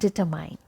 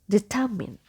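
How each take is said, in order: First: The last syllable sounds like the word mine. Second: The last syllable has a short i sound. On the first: The speaker calls it wrong. "It's not mine here, so it's not determine" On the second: The speaker calls it right. "The correct pronunciation is determine"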